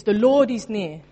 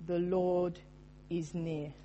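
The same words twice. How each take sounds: First: "The Lord is near" loud and firm, "Lord" punched with a falling tune; emphatic declaration. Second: Soft, hushed "The Lord is near" with "Lord" gently leaned on; soft first reading. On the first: Pastor insists to the congregation the verse is real, emphatic. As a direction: proclaim "The Lord is near" as settled fact, hitting "Lord". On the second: Pastor first reads the verse to the congregation, softly. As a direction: quietly lay "The Lord is near" down, "near" trailing away. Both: Shown as a demonstration. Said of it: "It's not a theoretical point".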